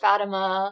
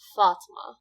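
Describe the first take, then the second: First: The name is said with three syllables. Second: The name is said with two syllables. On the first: The speaker calls it wrong. "It's not Fatima or Fatima. That's not how I say it" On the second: The speaker calls it right. "Fat, like thought, and then ma, like duh, Fatma"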